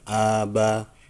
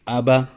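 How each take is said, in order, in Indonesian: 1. Vokalnya dibaca panjang. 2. Vokalnya dibaca pendek. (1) "Bukan aba" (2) "tapi aba"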